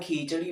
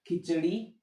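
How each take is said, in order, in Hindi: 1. पहला स्वर लंबा बोला जाता है। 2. पहला स्वर छोटा रखा जाता है। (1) "अपन खिचड़ी बोलते हैं, बड़ी बोलते हैं" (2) "सही यही है खिचड़ी"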